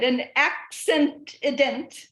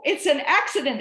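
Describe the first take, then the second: First: "accident" stretched slowly into accent-i-dent; punning pronunciation. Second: Said in the usual way. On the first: Shown as a demonstration.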